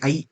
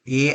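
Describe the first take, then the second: First: The vowel glides from 'a' to 'i'. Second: The vowel is a plain steady 'e' sound. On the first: The speaker calls it right. "It should be pronounce like the word और the letter ए।" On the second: The speaker calls it wrong. "आप आई नहीं बोल रहे हो, ए बोल रहे हो।"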